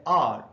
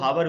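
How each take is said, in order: First: It is said as one short syllable, ar. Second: It starts with an h sound, how-er. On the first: This is how English-medium students say it. "English medium में पढ़ने वाले लोग इसको बोलते हैं आर" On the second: This is how some people say it. "कुछ लोग तो हावर भी बोल लेते हैं"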